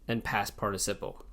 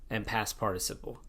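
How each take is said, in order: Both takes have the same delivery.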